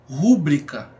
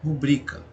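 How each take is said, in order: First: The stress is on the first syllable. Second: The stress is on the second syllable. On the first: The speaker calls it wrong. "se a sílaba tônica da palavra fosse aqui no ru" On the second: The speaker calls it right. "a palavra ela é pronunciada da seguinte maneira"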